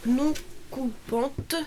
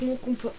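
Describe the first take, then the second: First: Slowly spelling out "non coupante"; slow and careful. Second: Said in the usual way. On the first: Real, not acted. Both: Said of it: "j'arrive pas à le dire".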